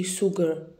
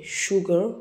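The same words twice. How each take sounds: First: SUGAR with a plain S, as soogar; wrong pronunciation. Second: SUGAR with SH at the start; correct pronunciation. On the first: Teacher showing learners what not to say, S mispronunciation. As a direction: begin SUGAR with s, as in soon. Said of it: "we don't say sugar". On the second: Teacher modelling the right word for learners, SH pronunciation. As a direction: say SUGAR as shu-gar. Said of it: "We say sugar". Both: Shown as a demonstration.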